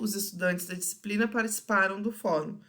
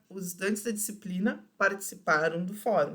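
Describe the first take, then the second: First: There is no pause after 'disciplina'. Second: There is a pause after 'disciplina'.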